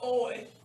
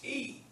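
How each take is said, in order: First: The diphthong is said like 'oy'. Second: The diphthong is said like 'ee'. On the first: The speaker calls it wrong. "It's not Oi" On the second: The speaker calls it right. "it's E"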